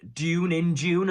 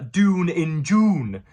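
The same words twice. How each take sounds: First: Dune and June have a y-glide before the vowel. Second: Dune rhymes with goon, with no y-glide. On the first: The speaker calls it right. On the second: The speaker calls it wrong.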